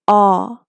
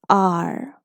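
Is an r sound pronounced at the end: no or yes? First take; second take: no; yes. First: The vowel ends with no r sound. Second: The vowel ends with an r sound. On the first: "In British English, we do not pronounce the R of these sounds" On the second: "In American English, we go simple"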